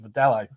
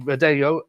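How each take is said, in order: First: It is said with an Australian pronunciation. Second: It is said with a Portuguese pronunciation. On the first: "in Australia it's just pronounced" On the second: "It's a Portuguese uh, word, obviously"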